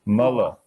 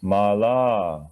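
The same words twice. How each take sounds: First: "Mala" said MUH-luh; teacher models "Mala" as MUH-luh; short a vowels. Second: "Mala" said MAA-laah; teacher models "Mala" as MAA-laah; long a vowels. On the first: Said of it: "is always a". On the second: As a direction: hold both ah sounds in "Mala". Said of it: "How about the second word?". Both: Shown as a demonstration.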